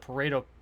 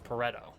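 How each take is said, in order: First: The name is said with an English pronunciation. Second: The name is said with an Italian pronunciation. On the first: The speaker calls it wrong. "I am pronouncing incorrectly" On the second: The speaker calls it right. "the Italian pronunciation is Pareto"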